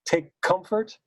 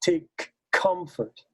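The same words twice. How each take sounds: First: "take comfort" with the K's joined into one; single K sound. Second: Slow "take comfort" with two separate K sounds. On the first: Director asking about one K, "take comfort" with a single joined K. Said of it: "do you do one K sound". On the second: Director asking about two K's, slow "take comfort" with both K's. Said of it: "or do you do two". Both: Shown as a demonstration.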